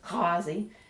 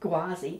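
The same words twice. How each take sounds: First: It begins with a rasping sound deep in the throat. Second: It begins with a plain hard G sound. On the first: The speaker calls it right. "it's Ghawazi" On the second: The speaker calls it wrong. "it's not Ghawazi"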